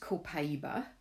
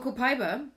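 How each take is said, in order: First: The word is said with a Brazilian-style pronunciation. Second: The word is said with an English-style pronunciation. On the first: The speaker calls it right. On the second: The speaker calls it wrong.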